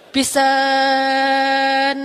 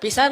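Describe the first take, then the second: First: The word is drawn out long for emphasis. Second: The word is said short and plainly.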